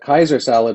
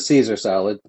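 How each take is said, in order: First: The first word begins with a K sound. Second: The first word begins with an S sound. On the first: It is a joke salad with a spiked helmet. "which is spelled the same, but you pronounce it Kaiser" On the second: It is the ordinary salad. "if you ordered the Caesar salad"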